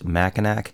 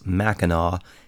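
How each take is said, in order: First: It is pronounced the way it is spelled. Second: It is pronounced the French way. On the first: The speaker calls it wrong. "That is how it's spelled" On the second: The speaker calls it right. "the French pronunciation"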